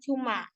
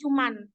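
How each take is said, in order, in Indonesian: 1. Kata ini berakhir dengan vokal a terbuka. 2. Kata ini berakhir dengan bunyi n tambahan. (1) "bentuk baku kata cuman yaitu harusnya cuma" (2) "ketika dilafalkan menjadi cuman"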